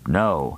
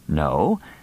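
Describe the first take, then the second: First: The pitch falls on the word. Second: The pitch rises on the word. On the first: "With a downward inflection" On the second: "spoken with a rising inflection"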